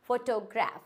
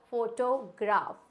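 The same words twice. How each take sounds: First: फोटोग्राफ as "fo-tuh-graf"; correct pronunciation. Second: फोटोग्राफ as "pho-to-graf", slowly; wrong pronunciation. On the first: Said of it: "सही pronunciation होता है". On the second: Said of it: "बिल्कुल ही गलत pronunciation". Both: Shown as a demonstration.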